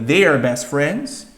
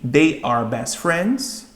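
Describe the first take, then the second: First: It is contracted into one syllable. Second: It is said as two full words.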